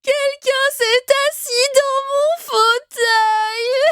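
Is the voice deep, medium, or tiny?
tiny. It is said in a tiny, small voice.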